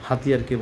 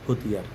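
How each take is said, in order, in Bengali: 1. প্রথম অক্ষরে খোলা 'ha' স্বর আছে। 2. প্রথম অক্ষরে গোলাকার 'ho' স্বর আছে। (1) "উনি হাতিয়ারকে বলছেন" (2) "বলছেন হতিয়ার"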